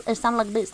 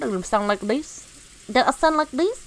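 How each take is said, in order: First: Playful Thai-accented English. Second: Playful Vietnamese-accented English. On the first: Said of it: "I do the Thai one". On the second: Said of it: "like, the Vietnamese one". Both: Shown as a demonstration.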